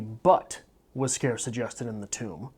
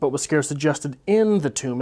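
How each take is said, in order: First: The stress is on the word scarce. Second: The stress is on the word in.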